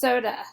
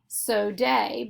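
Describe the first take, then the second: First: The last vowel is a weak 'uh' sound. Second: The last vowel is a long 'ay' sound. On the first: The speaker calls it right. "We know this word is pronounced soda" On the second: The speaker calls it wrong. "So this word looks like it would say so day, but that's not how we say this word"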